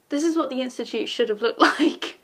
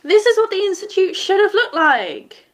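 First: Plain, laughing. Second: Higher and louder, insisting; emphatic loud repeat. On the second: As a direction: say it again with full conviction. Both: Real, not acted.

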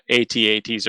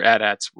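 First: A T A Ts said letter by letter; spelled out. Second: At ats pronounced like the words "at ats". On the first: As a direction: say A T A Ts as separate letter names. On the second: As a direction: say at ats as two short words, not letters. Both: Shown as a demonstration. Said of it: "however you prefer to say it".

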